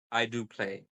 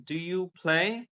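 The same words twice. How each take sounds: First: "I do play" pitched low, settling down on "play"; falling statement. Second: "Do you play?" slowly lifted high at "play"; rising question. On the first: Teacher demonstrates the answer to a question, falling "play". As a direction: drop "play" as a plain answer. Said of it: "when you give statements". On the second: Teacher demonstrates asking a question, rising "play". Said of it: "then my voice goes up". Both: Shown as a demonstration.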